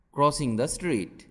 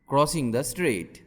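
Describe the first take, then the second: No difference in how they are said.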